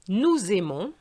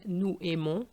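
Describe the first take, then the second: First: The s is linked as a z sound. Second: The s is not linked to the next word. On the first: The speaker calls it right. "I link the S with the A" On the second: The speaker calls it wrong. "sounds much better than nous aimons"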